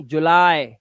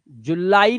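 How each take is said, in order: First: जुलाई as ju-LIE; lower, falling जुलाई with one gliding vowel; teacher's model of English July; correct English form. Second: जुलाई as ju-LAA-ee; Hindi-style जुलाई shown as wrong; wrong Hindi-style form. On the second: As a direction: end जुलाई on a separate "ee". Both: Shown as a demonstration. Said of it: "जुलाई नहीं".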